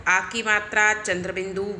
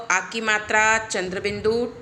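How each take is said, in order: Both takes have the same delivery.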